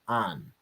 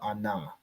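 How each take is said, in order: First: The syllable ends on the n sound. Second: The syllable ends with an added vowel. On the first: The speaker calls it right. "the first syllable here is just an" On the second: The speaker calls it wrong. "It's not ana"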